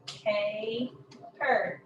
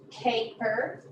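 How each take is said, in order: First: "Caper" broken in two, first syllable held; split syllables. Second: Said in the usual way. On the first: Shown as a demonstration. Teacher showing the first syllable, "Caper" split in two. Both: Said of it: "end of the first syllable".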